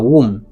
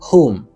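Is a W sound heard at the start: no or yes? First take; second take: yes; no. First: It begins with a W sound. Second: It begins with no W sound. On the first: The speaker calls it wrong. "C'est pas womb" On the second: The speaker calls it right. "W en pas prononcé. Ça veut dire W en muet"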